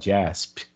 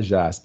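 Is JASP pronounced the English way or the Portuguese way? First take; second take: English; Portuguese. First: The name is read with English pronunciation. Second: The name is read with Portuguese pronunciation. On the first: The speaker calls it right. "você fala JASP" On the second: The speaker calls it wrong. "então você não fala JASP"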